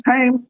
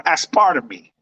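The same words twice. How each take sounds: First: "aspartame" ending in a long "tain"; pronunciation check. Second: "aspartame" ending in "tuh-mee"; wrong pronunciation. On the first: Host checking the word aloud, "aspartame" said AS-per-tain. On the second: Host unsure of the word, "aspartame" said as-PAR-tuh-mee. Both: Shown as a demonstration. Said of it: "maybe I'm saying it wrong".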